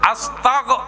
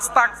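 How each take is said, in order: First: The word ends with a voiced g sound. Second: The word ends with a voiceless k sound. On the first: The speaker calls it right. "আস্তাগ গ" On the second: The speaker calls it wrong. "বলছো না আস্তাক ক, অবাজি ক মানি শেষ"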